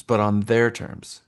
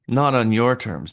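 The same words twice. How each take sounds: First: Their weighted, slower and lower; slow down and press the word their; stress on their. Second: NOT pressed, then the phrase falls away; stress on not. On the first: To agents, putting buyers first, stress on their. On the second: To agents, setting the buyer's terms aside, stress on not. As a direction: lean on the word Not to reject it. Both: Shown as a demonstration. Contrasting your terms with theirs.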